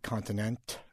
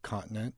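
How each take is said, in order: First: The word's ending is crisply over-articulated. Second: The word's ending is said in a relaxed way.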